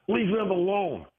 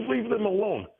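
First: High, put-on voice of the woman; mimicked protester. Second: Much higher, mocking squeak; mock her, pitched way up; mimicked protester. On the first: Imitating the protester snapping at him. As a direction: squeak it like a scolding stranger. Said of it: "she turns around and says". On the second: Imitating the protester snapping at him again. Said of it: "She goes".

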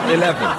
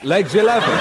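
First: Repeated through a laugh; giggling through the word. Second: Rising bingo call; lilting bingo call, ending up; bingo caller. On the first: Real, not acted. Repeats the bingo call laughing. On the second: Acted. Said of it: "bingo call, then repeated laughing".

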